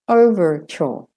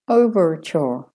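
The two takes are said the same way.

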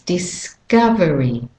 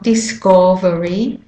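First: The stressed vowel is an 'uh' sound. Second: The stressed vowel is a full 'o' sound. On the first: The speaker calls it right. "it's discovery" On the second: The speaker calls it wrong. "it's not discovery"

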